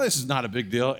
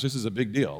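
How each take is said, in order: First: Offhand, rising and unconcerned; easy confidence before the storm; casual dismissal. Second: Dawning alarm in the dust storm; sober realisation. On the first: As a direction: shrug it off lightly. First haboob, contrast with realisation. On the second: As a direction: let it sink in. Realisation in haboob. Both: Retold or imitated.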